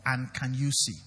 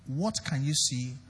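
First: Said in the usual way. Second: "What" leads, slow and low; stress on WHAT. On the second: Shown as a demonstration. Preacher contrasting two questions for the congregation, stress on "What". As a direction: draw out the question, leaning on "What". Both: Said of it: "Do you know the difference between".

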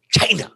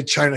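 First: Punchy, exaggerated way of saying "China"; Trump. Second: Said in the usual way. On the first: Podcast guest mimicking how a politician says it, exaggerated "China". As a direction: hit "China" hard as a clipped impression. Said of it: "whenever Trump says China". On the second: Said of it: "he doesn't say China".

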